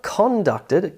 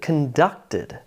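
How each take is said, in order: First: The stress is on the first syllable. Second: The stress is on the second syllable. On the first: The speaker calls it wrong. "It's not" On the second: The speaker calls it right. "words with emphasis on the second syllable"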